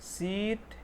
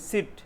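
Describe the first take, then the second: First: The vowel is a long ee. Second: The vowel is a short i. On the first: The speaker calls it right. "इसका correct pronunciation pronounce जो है ऐसे है" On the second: The speaker calls it wrong. "इसको ऐसे produce करते, तो वो गलत है"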